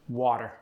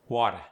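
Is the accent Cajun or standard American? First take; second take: standard American; Cajun. First: It is said in a standard American accent. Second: It is said in a Cajun accent.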